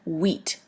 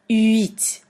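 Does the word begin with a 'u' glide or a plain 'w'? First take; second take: plain w; u glide. First: It starts with a plain English w sound. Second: It starts with a rounded u gliding into i. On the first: The speaker calls it wrong. "many people pronounce it like wheat, as in wheat bread, but that's not it" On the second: The speaker calls it right. "You really have to pronounce the U and then the I"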